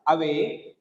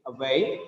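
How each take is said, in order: First: "away" with a full, stressed first "a"; slowly misplace the weight onto the "a" of "away"; wrong stress. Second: "away" with a light "a" and strong "way"; corrected stress. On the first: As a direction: counterexample "away", first syllable too strong. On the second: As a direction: say "away" weighted on its second syllable. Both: Shown as a demonstration. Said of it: "Not away".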